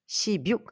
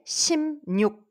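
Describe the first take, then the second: First: It is said as separate sip-yuk. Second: It is said with linking as sim-nyuk. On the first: The speaker calls it wrong. "Cela ne se prononce pas" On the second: The speaker calls it right. "la bonne prononciation, ce serait"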